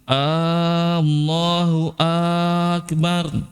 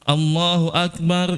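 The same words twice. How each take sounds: First: Both opening a vowels are drawn out. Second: No vowel is drawn out. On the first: Is Allah the greatest? The speaker calls it wrong. "dua-dua hamzanya dipanjangin" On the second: Allah is the greatest. The speaker calls it right.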